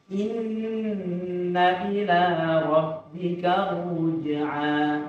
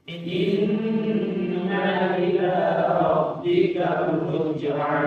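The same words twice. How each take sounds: Both takes have the same delivery.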